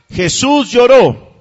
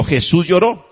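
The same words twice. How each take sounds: First: Lloró stretched slow and raised; emphatic slow. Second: Said in the usual way. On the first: Shown as a demonstration. Preacher driving the verse home to the congregation, slow and emphatic. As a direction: hit lloró hard and draw it out. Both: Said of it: "Diga conmigo".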